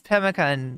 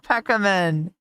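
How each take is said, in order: First: The word is said with an m sound, pemmican. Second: The word is said with a k sound, peckamen. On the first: The speaker calls it right. "It's pemmican" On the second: The speaker calls it wrong. "It's not Peckamen"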